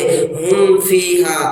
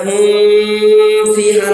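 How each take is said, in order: First: The m sound is clear, without nasalization. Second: The m sound is held and nasalized. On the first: The speaker calls it right. "साफ साफ पढ़ेंगे" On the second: The speaker calls it wrong. "नहीं पढ़ेंगे"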